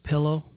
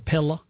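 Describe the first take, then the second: First: The word is said in a standard accent. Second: The word is said in a Southern accent.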